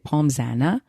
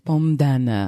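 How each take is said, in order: First: A Z sound links the two words. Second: No Z sound links the two words. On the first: The speaker calls it wrong. "You don't say the S, but I always do because I'm dumb. So we say" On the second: The speaker calls it right. "and it's"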